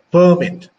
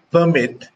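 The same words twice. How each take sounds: First: "permit" stressed on PER, as a noun; PER-mit, loud first syllable. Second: "permit" stressed on MIT, as a verb; light first syllable, weight on the end of "permit"; second-syllable stress. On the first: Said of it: "stress the word on the first syllable". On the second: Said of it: "stress it on the second". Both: Shown as a demonstration.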